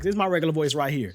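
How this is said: It is said in his natural voice.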